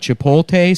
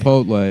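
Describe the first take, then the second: First: The L and T sounds are swapped. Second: The T and L sounds are in normal order. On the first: The speaker calls it wrong. "They swapped the letters" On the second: The speaker calls it right. "it's so fucking easy to say"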